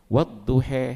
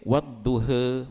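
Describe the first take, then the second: First: The final vowel leans strongly toward 'e'. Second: The final vowel leans only slightly toward 'e'. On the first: "itu imalah kubra" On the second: "imalah surah yang kecil"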